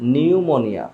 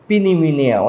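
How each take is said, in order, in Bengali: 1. এটা 'n' উচ্চারণ দিয়ে শুরু হয়। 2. এটা 'p' উচ্চারণ দিয়ে শুরু হয়। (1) "এখানে পের উচ্চারণটা হবে না" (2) "অনেকে অনেক রকম বলে"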